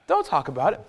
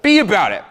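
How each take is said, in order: First: Softer, held back with a rising end; hushed setup. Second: "be about it" higher and louder than the setup; emphatic punch. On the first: Coach drilling a motto into the guys, hushed setup. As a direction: hold it back before the punchline. Repeated motto, soft then punched. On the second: Coach drilling a motto into the guys, emphatic "be about it". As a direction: hit "be about it" hard and high. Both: Real, not acted.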